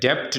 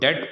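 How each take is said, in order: First: A b sound is heard before the t. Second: No b sound is heard before the t. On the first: The speaker calls it wrong. "डेप्ट नहीं पढ़ते" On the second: The speaker calls it right. "इसको डेट पढ़ते हैं"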